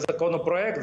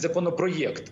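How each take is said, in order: First: The vowel after 'про' is a plain 'e'. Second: The vowel after 'про' is 'ye'. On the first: The speaker calls it wrong. "прем'єр у вас виступає і каже законопроект" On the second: The speaker calls it right. "замість законопроєкт"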